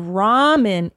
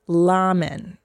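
First: The word begins with an R sound. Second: The word begins with an L sound. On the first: "they don't say their R's" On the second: "they say L"

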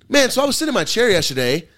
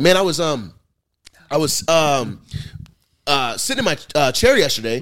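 First: It is said smoothly without hesitation. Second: It is said haltingly with many filler pauses.

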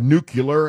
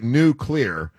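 First: It does not sound like 'new' and 'clear'. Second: It sounds like 'new' and 'clear' joined. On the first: The speaker calls it wrong. "instead of nuclear" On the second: The speaker calls it right. "it's supposed to be like nuclear"

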